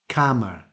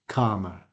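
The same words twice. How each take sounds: First: The first vowel is short, as in 'at'. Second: The first vowel is long, as in 'arm'. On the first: "pronounce this word as the same as the first one. They say calmer" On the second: "the received pronunciation, which is the same as arm, art. So it is calmer"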